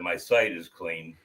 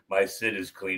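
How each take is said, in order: First: The second word sounds like 'sight'. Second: The second word sounds like 'sit'. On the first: The speaker calls it right. "instead of my sight is clean" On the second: The speaker calls it wrong. "she says ... my sit is clean"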